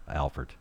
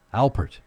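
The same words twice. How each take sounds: First: [name] said with an f, as Alfert, dropped low and soft; wrong pronunciation. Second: [name] said with a clear p, higher and louder; corrected pronunciation. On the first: Host stumbling over the bandleader's name, [name] said as Alfert. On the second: Host correcting himself on the bandleader's name, [name] with a clear p. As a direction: fix it firmly: Al-pert with a p. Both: Shown as a demonstration. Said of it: "Listen to me".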